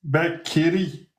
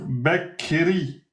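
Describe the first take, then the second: The two takes are said the same way.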